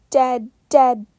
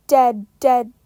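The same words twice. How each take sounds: The two takes are said the same way.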